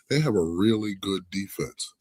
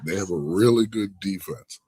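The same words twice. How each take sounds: First: The word defense gets no special emphasis. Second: The word defense is strongly emphasized.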